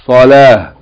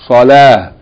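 First: The word ends with a bare h sound. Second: The same.

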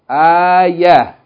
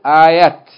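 First: The word ends with an h sound. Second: The word ends with a t sound. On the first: The speaker calls it right. "If we stop on it, we're going to say, ayah" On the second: The speaker calls it wrong. "We're not going to pronounce it ayat"

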